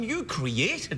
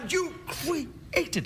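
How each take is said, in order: First: It is said plainly, without awe. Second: It is said with dramatic awe in the voice. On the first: The speaker calls it wrong. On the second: The speaker calls it right.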